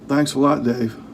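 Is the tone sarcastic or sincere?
sarcastic. It sounds sarcastic and mocking.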